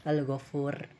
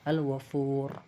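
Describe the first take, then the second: The two takes are said the same way.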